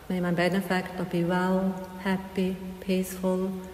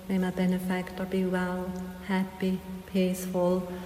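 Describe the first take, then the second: No difference in how they are said.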